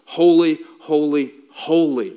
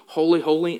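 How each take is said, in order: First: First "holy" hit louder, then two falling "holy" repeats; triple holy stressed. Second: Said in the usual way. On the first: Shown as a demonstration. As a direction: build "holy, holy, holy" with a loud punch on the first. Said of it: "Do I have your attention now?". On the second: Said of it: "This isn't just".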